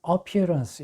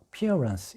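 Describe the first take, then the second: First: The stress is on the first syllable. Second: The stress is on the second syllable. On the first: The speaker calls it wrong. "appearance 이렇게 발음을 하시면 안 돼요. 여기서 액센트가 어에 없습니다" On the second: The speaker calls it right. "여기 두 번째 모음이 있어요. 그래서 appearance 이렇게 됩니다"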